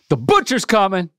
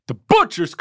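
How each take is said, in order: First: Butcher gets only light stress. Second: Butcher gets strong, heavy stress.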